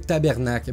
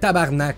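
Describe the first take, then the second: First: It is said in full, ending in 'cle'. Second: It is said clipped, ending in a 'k'. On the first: The speaker calls it wrong. "Ben pas comme ça" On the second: The speaker calls it right. "C'est tabarnak"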